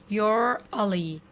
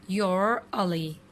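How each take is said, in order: The two takes are said the same way.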